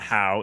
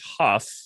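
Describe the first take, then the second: First: The name ends in an ow vowel sound. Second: The name ends in an f sound. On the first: The speaker calls it wrong. "It is not How" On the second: The speaker calls it right. "it is Huff"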